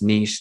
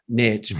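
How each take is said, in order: First: The word does not rhyme with rich. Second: The word rhymes with rich. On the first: This is how Australians and Europeans say it. "the Aussies and the Europeans would argue with me that it's niche" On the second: This is the speaker's own way of saying it. "niche doesn't rhyme with rich"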